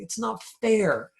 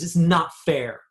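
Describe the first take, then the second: First: It is said in a pleading, pitiful tone. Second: It is said in a firm, demanding tone.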